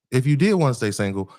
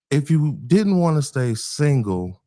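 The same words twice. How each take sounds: First: Did stressed in the corrected take; man quizzing women on their dating choices, stress on did. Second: Didn't said slowly with stress on didn't; man quizzing women on their dating choices, slow stress on didn't; slip on didn't. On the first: Quick fix landing on did. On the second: Slowed slip stressing didn't. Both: Real, not acted.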